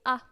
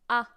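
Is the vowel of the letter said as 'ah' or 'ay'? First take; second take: ah; ah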